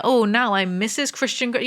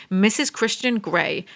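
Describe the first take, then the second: First: Mocking quote. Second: Said in the usual way. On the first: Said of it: "Why do people do that?".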